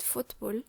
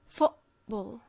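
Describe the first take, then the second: First: The t is a clear tongue-tip t. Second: The t is a catch in the throat. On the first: "I'm pronouncing it football" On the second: "it's pronounced as a glottal stop"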